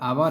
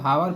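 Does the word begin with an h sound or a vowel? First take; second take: vowel; h sound. First: The word begins directly with a vowel. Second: The word begins with an h sound. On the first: The speaker calls it right. "यच जो होता है silent होता है" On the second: The speaker calls it wrong. "सामान्य भाषा में इसको हावर पढ़ते हैं लोग, लेकिन यह गलत पढ़ते हैं"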